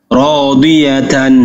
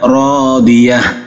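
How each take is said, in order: First: The word ends with a -tan syllable. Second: The word ends with an h sound. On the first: The reciter continues into the next words. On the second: The reciter stops after this word.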